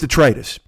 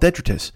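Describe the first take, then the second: First: The stress falls on the second syllable. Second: The stress falls on the first syllable. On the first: The speaker calls it right. "So it's detritus" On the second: The speaker calls it wrong. "I used to call it detritus"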